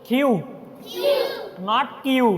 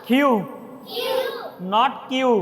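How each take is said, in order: No difference in how they are said.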